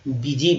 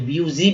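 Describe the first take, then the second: First: The first vowel sounds like ee. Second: The first vowel sounds like yoo. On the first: The speaker calls it right. "बीजी बोलेंगे" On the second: The speaker calls it wrong. "ब्यूजी भी नहीं बोलते हैं"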